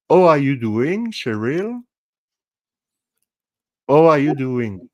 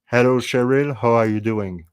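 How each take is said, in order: First: Playful French accent, pitched higher, H dropped. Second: Careful English with the French accent toned down; without French accent. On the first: Host showing Cheryl his accent for fun, hammed-up French accent. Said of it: "accent in French, it is". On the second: Host showing Cheryl a greeting for fun, without French accent. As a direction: pronounce the H, playing down the French accent. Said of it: "Without accent in French". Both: Shown as a demonstration.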